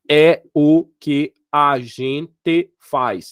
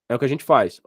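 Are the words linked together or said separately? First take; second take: separately; linked. First: Each word is said separately with small gaps. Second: The words run together without any gaps. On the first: The speaker calls it wrong. "Eu não falei, ... Ninguém fala assim" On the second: The speaker calls it right. "eu juntei tudo"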